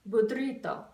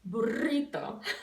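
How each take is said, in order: First: A d sound comes right before the r. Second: The r is flipped with no d before it. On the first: "put a D in front of it and say budrito"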